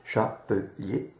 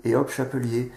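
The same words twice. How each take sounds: First: Syllabic decoding. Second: Chapelier tossed off in one go after a breezy hop; quick guess. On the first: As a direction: spell out Chapelier slowly like a child decoding. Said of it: "En syllabique, on peut tout lire". (Chapelier lu lentement, syllabe par syllabe) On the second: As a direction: guess the whole word without reading it. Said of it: "ils vont lire chapeux, hop, ils déduisent". (chapelier deviné d'un coup, à la légère) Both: Shown as a demonstration.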